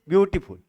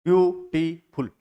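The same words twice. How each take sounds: First: Said in the usual way. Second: "ब्यू… टी… फुल", three slow beats; split into syllables. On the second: Shown as a demonstration. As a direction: say "ब्यूटीफुल" slowly, one syllable at a time. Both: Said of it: "इसमें भी कितने हैं".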